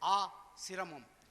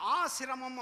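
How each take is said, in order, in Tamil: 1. முதல் அசைக்குப் பின் இடைவெளி உள்ளது. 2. இந்தச் சொல் இடைவெளி இல்லாமல் சரளமாகச் சொல்லப்படுகிறது. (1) "அதை நிறுத்தி சொல்லிட்டா பொருள் மாறி போயிடும்" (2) "ஆசிரமம் அப்படின்னு ஒரு வார்த்தை இருக்கு"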